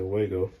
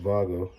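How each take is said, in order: First: The name is said with an American pronunciation. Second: The name is said with its foreign pronunciation. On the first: This is how Americans usually say it. The speaker calls it wrong. "I say Wago because I'm American" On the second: This is how the makers say it. The speaker calls it right. "I believe they pronounce it Vago"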